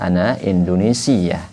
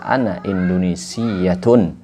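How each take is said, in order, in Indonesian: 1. Kata terakhir berakhir pendek dengan 'ah'. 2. Kata terakhir berakhir dengan 'tun' penuh. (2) "Boleh dibaca ana Indonesiatun"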